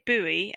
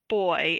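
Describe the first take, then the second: First: It is said the American way. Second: It is said the British way, like boy. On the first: "I would say buoy" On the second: "he would say boy"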